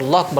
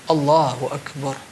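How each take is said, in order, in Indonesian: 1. Diucapkan cepat dan terpotong-potong. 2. Diucapkan pelan dan hati-hati. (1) "Apa Allahu akbar"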